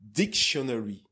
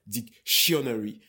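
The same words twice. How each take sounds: First: The stress is on the first syllable. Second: The stress is on the second syllable. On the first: The speaker calls it right. "you have to pronounce dictionary" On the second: The speaker calls it wrong. "and not dictionary. Because if you say dictionary, the English people, they will hear chionery"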